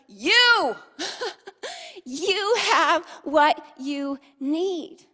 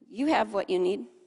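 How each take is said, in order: First: The word you is said with strong emphasis. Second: The word you is said without emphasis.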